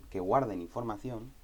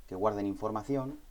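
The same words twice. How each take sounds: The two takes are said the same way.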